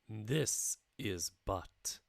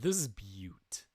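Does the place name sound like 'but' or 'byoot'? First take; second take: but; byoot. First: The place name sounds like the word 'but'. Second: The place name sounds like 'byoot'. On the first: The speaker calls it wrong. "Okay, I'll stop saying it" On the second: The speaker calls it right. "it's actually Butte"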